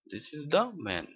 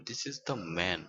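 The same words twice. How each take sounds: First: "the" punched harder within the phrase; stress on "the". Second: Said in the usual way. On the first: Shown as a demonstration. Teacher showing emphasis to learners, "the" stressed. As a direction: lean firmly on the word "the". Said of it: "উপর জোর দেওয়ার প্রয়োজন হয়". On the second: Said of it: "এখানে কোনো সময়ই দা উচ্চারণ হবে না".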